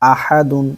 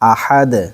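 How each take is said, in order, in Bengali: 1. শব্দটি '-un' দিয়ে শেষ হয়। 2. শব্দটি একটি খালি 'd' ব্যঞ্জন দিয়ে শেষ হয়। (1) "দাল দুই পেশ দুন" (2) "সাকিন হবে"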